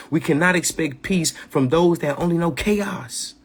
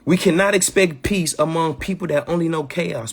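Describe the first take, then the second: First: "We cannot expect peace from those that only know chaos" said slower and weightier; emphatic repeat. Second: Said in the usual way. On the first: Shown as a demonstration. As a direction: lean on "cannot" and land it. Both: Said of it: "I'ma say that one more time".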